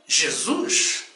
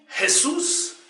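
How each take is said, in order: First: The name is pronounced the Portuguese way. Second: The name is pronounced the Spanish way. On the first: "no Brasil e em todas as nações de língua portuguesa... dizemos com muita fé e alegria" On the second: "Os hispânicos dizem"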